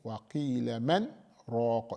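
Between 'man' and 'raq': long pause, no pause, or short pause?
short pause. A brief break without breath separates man and raq. The speaker calls it right. "you make a sakt, you make a short pause"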